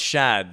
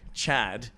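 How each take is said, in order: First: The name begins with a sh sound. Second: The name begins with a ch sound. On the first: The speaker calls it right. "no, no, no, it's Shad" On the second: The speaker calls it wrong. "Because they go Chad"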